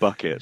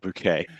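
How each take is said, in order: First: It sounds like the everyday word bucket. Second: It sounds like the French-style word bouquet. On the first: "you're pronouncing it bucket" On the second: "not bouquet"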